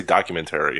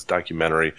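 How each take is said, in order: First: "documentary" with a clear T, ending in "tary"; alternate documentary pronunciation. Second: "documentary" with the T dropped, ending "men-ery"; corrected documentary pronunciation. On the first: Co-host admits his habitual way, "documentary" ending in a full "tary". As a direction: sound the T in the end of "documentary". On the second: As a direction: say "documentary" smoothly, no T after the N. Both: Shown as a demonstration. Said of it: "I always wanna say documentary".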